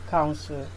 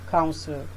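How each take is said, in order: The two takes are said the same way.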